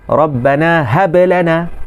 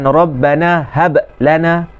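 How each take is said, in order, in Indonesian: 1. Bunyi b bersambung terus dengan bunyi yang mengikutinya. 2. Bunyi b dipotong daripada bunyi yang mengikutinya.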